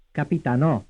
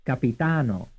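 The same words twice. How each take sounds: First: "Capitanò" with the beat on NÒ; final-syllable stress. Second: "Capitano" with a long beat on TA; third-syllable stress. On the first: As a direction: land firmly on the last syllable of "Capitanò". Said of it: "stressed on the fourth syllable". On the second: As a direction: stretch "ta" in "Capitano", keep "no" light. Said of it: "stressed on the third syllable". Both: Shown as a demonstration.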